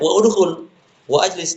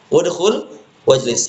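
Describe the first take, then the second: First: The initial vowels after wa are said separately. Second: Wa runs into each word without the initial vowels. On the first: The speaker calls it wrong. "Jangan kita baca ... enggak boleh" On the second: The speaker calls it right.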